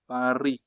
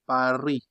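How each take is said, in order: First: The final S is silent. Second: The final S is silent.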